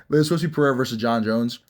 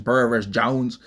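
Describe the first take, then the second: First: Said in the usual way. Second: Mock country twang on Jones; country accent. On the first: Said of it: "Why'd I sound". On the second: Shown as a demonstration. Host mimics his own slip, mock country accent. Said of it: "turn into a country person".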